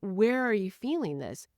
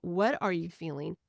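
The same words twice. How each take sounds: First: "Where" set against "what" as the key word; stress on where. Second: Light stress on "What". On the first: Parent asking a child where, contrast stress on "Where". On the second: Parent asking a child, light stress on "What". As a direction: ask it evenly, leaning on "What". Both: Shown as a demonstration.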